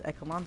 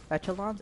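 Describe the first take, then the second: First: "Echelons" with a hard K sound; unsure pronunciation. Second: "Echelons" with a CH as in "etch"; unsure pronunciation. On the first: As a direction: say "Echelons" as EK-uh-lons, softly questioning. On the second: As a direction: say "Echelons" as ETCH-uh-lon, questioning. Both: Shown as a demonstration. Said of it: "I don't know how to pronounce that word".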